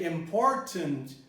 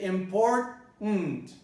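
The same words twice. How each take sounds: First: The last syllable has a weak schwa vowel. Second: The last syllable has no vowel at all. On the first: "with a schwa, with a neutral vowel" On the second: "you eliminate the schwa altogether"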